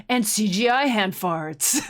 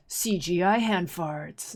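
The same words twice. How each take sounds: First: A hint of a cool movie-trailer narrator; lightly voiced trailer announcer, slow; cool guy trailer voice. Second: Slow, lightly voiced cool trailer narrator; cool guy trailer voice. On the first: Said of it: "he's like". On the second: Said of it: "cool guy voice".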